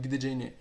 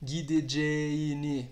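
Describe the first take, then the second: First: The vowel before the soft g is short. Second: The vowel before the soft g is lengthened. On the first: The speaker calls it wrong. "Eu não estou dizendo gideceğini" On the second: The speaker calls it right. "eu estou dizendo gideceğini. Perceba que eu estou prolongando"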